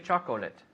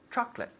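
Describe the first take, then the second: First: The word is said with three syllables. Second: The word is said with two syllables. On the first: The speaker calls it wrong. "We don't say chocolate" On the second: The speaker calls it right. "We say chocolate. Two syllables"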